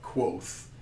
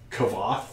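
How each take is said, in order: First: The name sounds like the word quoth. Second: The name is sounded out letter by letter. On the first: This is how the book says to say it. "roughly pronounced like Quoth, like you know Quoth the Raven" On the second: This is how it reads from the spelling. "I always read it as Kavoth the way it's written"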